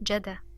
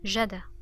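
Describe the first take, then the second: First: The d sound is short and single. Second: The same.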